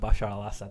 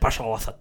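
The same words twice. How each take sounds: First: The name is said slowly without guttural sounds. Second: The name is said quickly with guttural sounds. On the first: The speaker calls it wrong. "when I say Bashar al-Assad" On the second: The speaker calls it right. "They say it so quickly. It's guttural"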